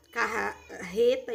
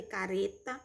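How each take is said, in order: First: CARRETA slowly, with a throaty, h-like R; double R. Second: CARETA slowly, with a tapped R; single tapped R. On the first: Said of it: "com dois R's". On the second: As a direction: say "careta" slowly with a tongue-flick R. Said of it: "com R". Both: Shown as a demonstration.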